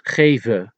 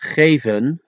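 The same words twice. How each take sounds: First: The final n sound is dropped. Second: The final n sound is pronounced.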